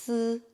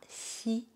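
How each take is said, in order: First: The vowel is a buzzy sound after the s. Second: The vowel is a clear 'ee' sound. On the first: The speaker calls it right. "ça se prononce S" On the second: The speaker calls it wrong. "ce n'est pas si"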